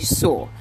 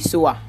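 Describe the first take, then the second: First: The word ends cleanly on the 'or' sound. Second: The word ends with an added 'uh' vowel. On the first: The speaker calls it right. "you should say so" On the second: The speaker calls it wrong. "you shouldn't say soa"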